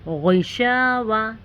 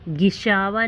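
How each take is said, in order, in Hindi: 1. पहली ध्वनि भारी और मोटी है। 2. पहली ध्वनि हल्की और पतली है। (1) "इसे थोड़ा मोटा अदा करें" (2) "गिशावा नहीं पढ़ना है"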